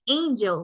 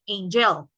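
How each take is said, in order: First: The stress is on the first syllable. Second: The stress is on the second syllable. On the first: The speaker calls it right. "we say angel" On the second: The speaker calls it wrong. "we don't say angel"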